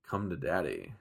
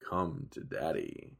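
First: The phrase is said at a normal pace. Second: The phrase is said more slowly and drawn out.

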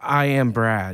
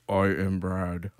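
First: It is said in his normal voice. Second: It is said in a deeper voice.

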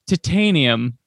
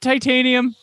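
First: It is pronounced with a British-style vowel pattern. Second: It is pronounced with an American-style vowel pattern. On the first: Someone else said it this odd way. The speaker calls it wrong. "same old weird pronunciations with Koenig going titanium" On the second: This is the usual way to say it. The speaker calls it right. "isn't it titanium? Like, right? That's how you pronounce it?"

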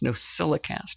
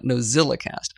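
First: The consonant after 'No' is an s sound. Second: The consonant after 'No' is a z sound. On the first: The speaker calls it right. "that's why it's an S" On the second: The speaker calls it wrong.

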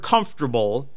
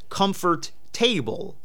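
First: It is said the usual way, with three syllables. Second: It is said as 'comfort' plus 'table', four syllables. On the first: "no one pronounces it as comfort table" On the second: "when you look at it, it's comfort table"

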